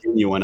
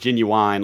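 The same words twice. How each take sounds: First: The last syllable sounds like 'win'. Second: The last syllable sounds like 'wine'. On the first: The speaker calls it right. "But it's pronounced genuine" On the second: The speaker calls it wrong. "like the rapper. That's how a lot of Southerners say it"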